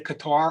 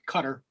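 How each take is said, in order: First: The name is said in an everyday English way. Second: The name is said as the listener would say it. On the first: This is how the speaker normally says it. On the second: This is how the listener's community says it.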